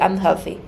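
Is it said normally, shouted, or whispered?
normally. It is said in a normal voice. "Or just say"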